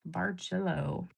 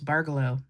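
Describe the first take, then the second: First: The middle sounds like the word jello. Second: The middle does not sound like jello. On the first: The speaker calls it right. "It's like B A R and jello" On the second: The speaker calls it wrong. "I always thought it was Bargello, like Ghirardelli"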